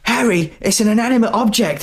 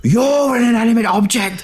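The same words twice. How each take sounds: First: Much higher, calm wife voice. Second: Much higher hammed-up scream. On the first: Retold or imitated. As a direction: pitch way up, patient wife. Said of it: "And his wife says". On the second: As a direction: shriek it back at her, mock furious. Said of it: "screaming at his wife".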